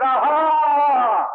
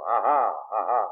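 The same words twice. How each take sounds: First: Loud, high jeering aha; mocking triumphant cry; gloating mockery. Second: Said in the usual way. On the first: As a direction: crow over the fallen like Edom. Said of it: "Edom stood by the road and they said". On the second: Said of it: "and they laugh".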